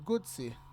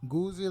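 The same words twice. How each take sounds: First: The middle consonant is a ts sound. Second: The middle consonant is a z sound. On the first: "kind of like pizza" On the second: "like jacuzzi"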